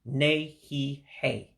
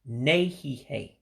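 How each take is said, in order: First: It is said slowly. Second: It is said at normal speed.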